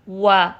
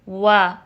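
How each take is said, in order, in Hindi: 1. गोल होंठों के बाद का स्वर हल्का और पतला लगता है। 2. गोल होंठों के बाद का स्वर हल्का और पतला लगता है।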